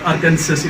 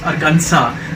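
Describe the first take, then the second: First: The final s is pronounced. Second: The final s is silent. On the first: The speaker calls it wrong. "it's not Arkansas" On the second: The speaker calls it right. "The last S remains, you know, silent there"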